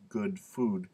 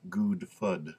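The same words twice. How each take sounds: First: GOOD with short oo, FOOD with long oo; correct vowels. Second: GOOD with long oo, FOOD with short oo; slow, careful "good fud" with the vowels swapped. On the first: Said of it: "better control of English". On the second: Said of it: "sorry for me to do this". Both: Shown as a demonstration.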